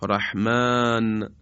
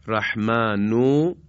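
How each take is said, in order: First: رحمان slow, ending on a silent "n"; pausal form. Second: رحمانو slow, with the final "u" sounded; connected form. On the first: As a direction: stop رحمان on the "n", no vowel after it. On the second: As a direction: draw out رحمانو and end it on "u". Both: Shown as a demonstration.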